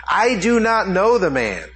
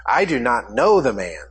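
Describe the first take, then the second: First: Higher, firmer retelling of the oath; sworn denial. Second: Said in the usual way. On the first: Retold or imitated. Preacher voicing Peter swearing to the bystanders, raised and insistent. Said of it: "and he swore". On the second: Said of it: "this time with an oath".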